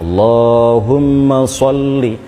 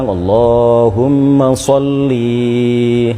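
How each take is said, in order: First: The final vowel of sholli is short. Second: The final vowel of sholli is drawn out. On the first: The speaker calls it right. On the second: The speaker calls it wrong.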